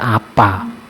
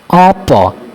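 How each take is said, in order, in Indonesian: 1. Vokal akhirnya terdengar seperti 'ah'. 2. Vokal akhirnya terdengar seperti 'oh'. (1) "dalam bahasa ngapak akan dibaca apa" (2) "huruf vokal A berubah menjadi O"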